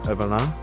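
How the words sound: The name is said with a French accent. "I almost almost pronounced it correctly"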